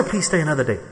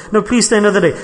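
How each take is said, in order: First: Gentle plea. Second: Insistent plea. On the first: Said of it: "I'll say". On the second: Host insisting to the departing guest, mock pleading. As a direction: insist warmly, don't let them go. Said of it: "No, no, I've got to go". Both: Retold or imitated.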